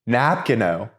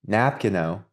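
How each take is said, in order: First: The word is said more loudly. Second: The word is said at normal volume.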